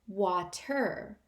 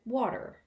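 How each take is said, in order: First: The middle consonant is a crisp, clear T. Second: The middle consonant is a soft D-like sound. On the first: It avoids giving offense in Africa. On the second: In Africa it sounds like a terrible insult.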